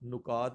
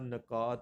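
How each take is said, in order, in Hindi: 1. पहले अक्षर में u स्वर है। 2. पहले अक्षर में a स्वर है। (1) "नुकात नहीं होता" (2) "नकात नहीं होता"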